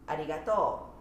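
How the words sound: It is said with an Osaka accent.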